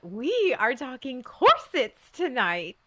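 It is said excitedly with a high pitch.

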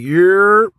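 It sounds like a friendly, casual greeting.

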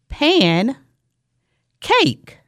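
The two parts are said with a break. The parts are heard as two separate words. "say it with me"

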